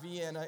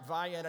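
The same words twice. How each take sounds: First: The name is said the outsider's way. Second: The name is said the local way. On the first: The speaker is not from the area. The speaker calls it wrong. "not Vienna" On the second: The speaker is from the area. The speaker calls it right. "Get that right, Vienna"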